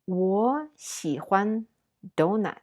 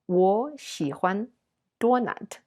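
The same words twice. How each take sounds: First: Donut is pronounced the English way. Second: Donut is pronounced with Chinese sound habits.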